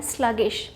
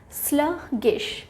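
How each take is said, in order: First: Said in the usual way. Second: sluggish slowly split as "slug... gish"; teacherly, drawn-out sluggish with a gap mid-word; syllable by syllable. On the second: Shown as a demonstration. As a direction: break sluggish into two slow, separate syllables. Teacher breaks up new word.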